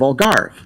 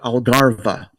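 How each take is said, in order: First: The word ends on the v sound. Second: The word ends with an added vowel sound. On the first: The speaker calls it right. "instead of Algarve" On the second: The speaker calls it wrong. "So I pronounced it Algarva"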